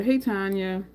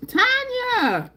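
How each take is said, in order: First: Said in the usual way. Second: High, loud squeal of her name; excited yell. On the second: Real, not acted. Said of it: "I'm yelling, I'm so excited".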